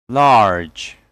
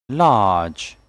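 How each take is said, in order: First: "Large" with the R sounded; American pronunciation. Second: "Large" with long "ah", silent R; British pronunciation. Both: Shown as a demonstration. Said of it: "And American English will be".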